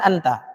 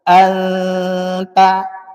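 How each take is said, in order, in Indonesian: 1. N-nya pendek, tanpa dengung. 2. N-nya ditahan dengan dengung. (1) "Boleh. Nah, dalam bahasa sehari-hari" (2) "di dalam Al-Qur'an harus ada gunnah"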